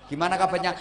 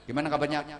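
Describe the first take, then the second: First: It is asked warmly, with a smiling voice. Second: It is asked curtly, with a tight, sullen voice. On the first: The person has a clean, untroubled heart. The speaker calls it right. "Selalu melebar" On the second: The person is troubled inside. The speaker calls it wrong. "kalau lambene nyiut ya"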